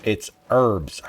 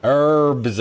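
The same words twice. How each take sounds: First: "herbs" with a silent h, like "erbs"; American herbs. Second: Herbs said as "erbs", no h, American; h-less herbs. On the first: Insisting on the American "erbs" to the game. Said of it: "Herb is a goddamn person". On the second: Mocking the British h in herbs, says "erbs". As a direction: drop the h: "erbs". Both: Shown as a demonstration.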